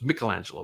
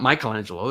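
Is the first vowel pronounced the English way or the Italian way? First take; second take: Italian; English. First: The first vowel is pronounced the Italian way. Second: The first vowel is pronounced the English way. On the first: The speaker calls it right. "it's Michelangelo because M I" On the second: The speaker calls it wrong. "it's not Michelangelo"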